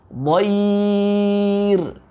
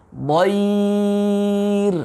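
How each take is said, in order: No difference in how they are said.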